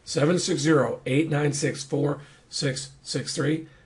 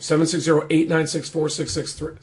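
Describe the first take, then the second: First: The number is said at a slower pace. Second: The number is said at a quicker pace.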